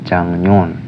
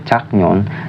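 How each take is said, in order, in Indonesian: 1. Konsonan sebelum nyon adalah bunyi ng. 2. Konsonan sebelum nyon adalah bunyi k. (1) "tapi dibaca itu jangnyon" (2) "tulisannya jaknyon"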